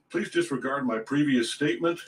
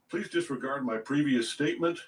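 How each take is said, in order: No difference in how they are said.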